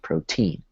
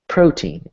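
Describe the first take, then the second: First: The stress is on the second syllable. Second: The stress is on the first syllable. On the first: The speaker calls it wrong. "instead of protein" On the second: The speaker calls it right. "You say it like protein"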